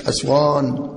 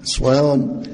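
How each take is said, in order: First: أسوان with the mistaken vowel; أسوان said the wrong way, as a warning; wrong pronunciation. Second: أسوان with a clean, open vowel; أسوان said the right way; correct pronunciation. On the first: Teacher showing students the wrong way to say it. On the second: Teacher modelling the correct word for students. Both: Shown as a demonstration. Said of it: "مش أسوان".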